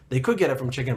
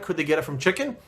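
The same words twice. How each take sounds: First: Could stressed, falling to a flat statement on chicken; answering statement. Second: Rising question on chicken; rhetorical question. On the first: Answering his own question with a firm statement. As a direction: lean on could, then let it drop. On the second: Asking the audience a rhetorical chicken question. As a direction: ask it, then answer yourself. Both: Shown as a demonstration.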